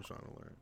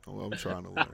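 First: Whispered, half to himself; whispered aside. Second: Said in the usual way. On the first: Real, not acted. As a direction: breathe it out as an aside. Hushed repeat to himself.

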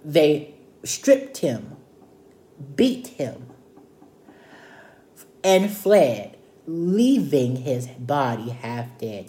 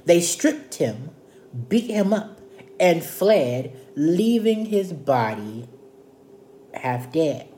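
First: "stripped", "beat", "fled", "half dead" set apart by long pauses; itemized for emphasis. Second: Said in the usual way. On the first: Shown as a demonstration. Teacher counting four things done to the man, "stripped", "beat", "fled" spaced out. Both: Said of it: "That's four things".

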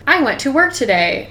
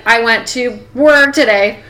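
First: "I went to work today" in one even, unbroken flow; smooth delivery. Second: "I went to work today" slowed, with "work" stretched and disjointed; unnatural edit. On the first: Podcaster demonstrating a natural-sounding sentence, smooth delivery. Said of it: "like, smooth". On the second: Podcaster mimicking a badly cut audio edit, unnatural and halting. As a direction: break the flow awkwardly at "work". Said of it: "It just didn't sound natural". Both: Shown as a demonstration.

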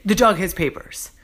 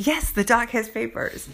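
First: Skeptical echo, leaning on dog; doubting boss repeating it back; a touch of disbelief, slightly louder; mock incredulous. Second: Pitched up, leaning on yes; fed-up echo back at him; a touch of sarcasm in the repeat; exasperated reply. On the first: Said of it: "He's like". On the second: Retold or imitated. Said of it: "I'm like".

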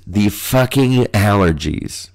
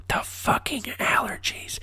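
First: Said in the usual way. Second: Hissed, voiceless whisper; hushed stage-whisper rant; exasperated whisper. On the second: Pretend. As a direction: whisper it through your exasperation. Repeats the phrase in exasperated whisper.

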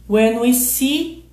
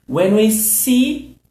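The two takes are said the same way.

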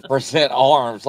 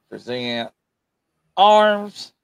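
First: Lighter imitation of a drill order; mock military command. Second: Barked parade-ground order; military command. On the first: Shown as a demonstration. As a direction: replay the command half-joking. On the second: Real, not acted. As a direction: drill sergeant calling arms. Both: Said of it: "Why did I sound like a damn military fool?".

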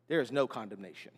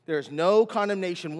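First: Low, soft, settled statement; quiet assurance. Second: "no" punched firmly, falling at the end; stress on no. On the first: Preacher assuring believers of no condemnation, quietly and low. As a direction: drop right down to deliver the assurance. Same line softly, then emphatically. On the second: Preacher repeating the assurance to believers, "no" firmly stressed. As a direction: lean hard on the word "no". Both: Real, not acted.

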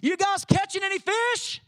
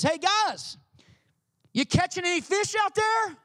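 First: Higher, light friendly call from the shore; Jesus calling out. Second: Higher, friendly call across the water; Jesus calling out. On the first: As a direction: ask the fishermen casually from afar. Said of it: "He uses the same words Jesus does". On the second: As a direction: call out to the fishermen from the shore. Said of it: "he yells out to them". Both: Retold or imitated.

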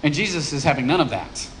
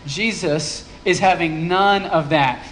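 First: Said in the usual way. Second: "none" drawn out and leaned on with a falling tune; slow down and land hard on "none"; slow, stress on none. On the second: Shown as a demonstration. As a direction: savour "none" as the punchline. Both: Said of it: "I love what's happening here".

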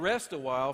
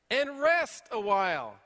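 First: Said in the usual way. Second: Slow, louder "rest a while" with weight on rest; emphatic command. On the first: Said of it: "He's saying rest". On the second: Acted. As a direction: lean on rest, slow and firm. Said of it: "So he's telling me what to do".

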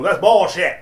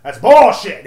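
First: Raised, angry first outburst; loud protest from a drunk customer; retold angry customer. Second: Much louder, higher second blast of anger; retold yell. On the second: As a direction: shout it as the customer loses his temper. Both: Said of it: "He starts getting loud".

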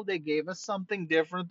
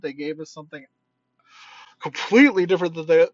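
First: Said in the usual way. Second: Completely punched louder and quick; stress on completely. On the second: Shown as a demonstration. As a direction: hit the word completely hard.

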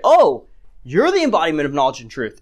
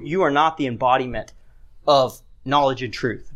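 First: Mock-impressed sarcasm with a big "Oh"; sarcastic. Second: Said in the usual way. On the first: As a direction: feign being impressed by them. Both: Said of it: "But he's doing it sarcastically".

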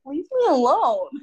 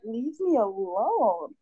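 First: Louder and higher, a sharp final leave me alone; firmer leave me alone. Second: Very slow, drawn-out, each word weighed, leave me alone. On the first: Retelling her last reply to the pestering man, louder and fed up. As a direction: snap it back at him, fed up. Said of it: "And I was like". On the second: Retelling how she answered a pestering man, slow and drawn out. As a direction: stretch it out slowly like a tired warning. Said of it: "and I was like". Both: Retold or imitated.

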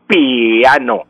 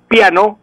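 First: "piano" drawn out as pi-A-no; diphthong split into hiatus. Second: Said in the usual way. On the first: Shown as a demonstration. Professor shows what not to say, piano split pi-a-no. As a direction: hold the i of "piano" apart from the a. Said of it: "no puedo decir piano". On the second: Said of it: "la pronuncio el".

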